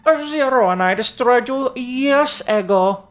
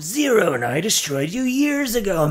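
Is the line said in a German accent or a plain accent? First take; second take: German; plain. First: It is spoken in a German accent. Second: It is spoken without a German accent. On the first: The speaker calls it wrong. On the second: The speaker calls it right.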